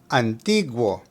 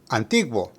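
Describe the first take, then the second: First: The word is said at a slower pace. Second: The word is said at a faster pace.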